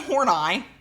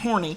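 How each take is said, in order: First: It is said following the pronunciation key. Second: It is said just as it is spelled. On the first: "there was a pronunciation key for this person's name" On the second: "except it's spelled horny"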